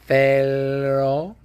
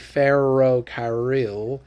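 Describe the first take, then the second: First: The r is a forward, L-like tongue tap. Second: The r is a soft American-style r. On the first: The speaker calls it right. "stick your tongue way forward in your mouth and say ferrocarril" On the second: The speaker calls it wrong. "I don't want you to say ferrocarril"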